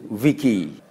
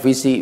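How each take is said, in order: First: The c is pronounced as a k sound. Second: The c is pronounced as an s sound. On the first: This follows Latin spelling rules. The speaker calls it right. "Seluruh C di dalam bahasa Latin itu dibaca K" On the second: This follows English spelling rules. The speaker calls it wrong. "Kita bacanya visi biasanya karena kita tidak membacanya dengan ejaan bahasa Latin tapi ejaan bahasa Inggris"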